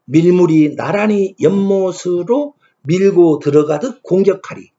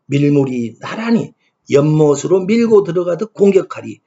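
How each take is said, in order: First: Put-on slow, measured reading of the old verse line; slow verse recitation. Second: Said in the usual way. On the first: Shown as a demonstration. Lecturer reciting the hyangga verse to students, slow measured recitation. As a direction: intone the poem line slowly, pressing on 밀고. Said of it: "세 번째 구절입니다". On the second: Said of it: "이렇게 풀이됩니다".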